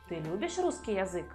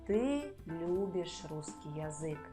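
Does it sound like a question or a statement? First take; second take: question; statement. First: It is said with question intonation. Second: It is said with statement intonation. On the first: It asks whether the listener loves Russian. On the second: It states that the listener loves Russian.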